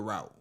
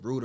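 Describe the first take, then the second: First: Route said like "rowt"; "rowt" pronunciation. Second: Route said like "root"; "root" pronunciation. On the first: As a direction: say route to rhyme with out. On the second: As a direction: say Route to rhyme with boot. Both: Shown as a demonstration. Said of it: "How would you say it?".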